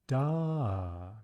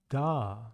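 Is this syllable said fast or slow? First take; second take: slow; fast. First: The syllable is drawn out slowly. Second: The syllable is said more quickly. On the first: "taking it slowly at first" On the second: "and then picking up speed"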